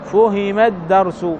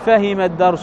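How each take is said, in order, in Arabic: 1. حركة الفعل الأولى ضمة. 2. حركة الفعل الأولى فتحة. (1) "لا، فهم الدرس" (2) "ما نقول فهم الدرس"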